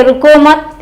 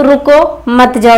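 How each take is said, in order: First: रुको and मत joined with no break between; no pause after रुको, stop after मत; रुको मत run together. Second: Slow रुको, break, then मत जाओ joined; pause after रुको. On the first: Teacher showing the go-ahead sense, रुको मत as one unit. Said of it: "यहाँ जाने का भाव है". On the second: Teacher showing the forbidding sense, pause after रुको. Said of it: "मना करने का भाव है". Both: Shown as a demonstration.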